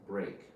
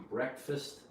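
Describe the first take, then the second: First: Full vowel on break, falling tone; word by itself. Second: Breakfast with short E, BREK-fist; breakfast as one joined word, weak ending; combined word. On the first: Teacher contrasting it with breakfast, break by itself. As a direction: break with a long A, like brake. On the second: Teacher contrasting the same word here, combined pronunciation. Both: Shown as a demonstration. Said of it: "Notice the difference".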